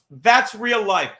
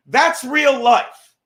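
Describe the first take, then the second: First: "That's real life" repeated slowly, a little softer, still stressed; quieter echo. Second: "That's real life" slow and loud, each word hammered; emphatic declaration. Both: Real, not acted.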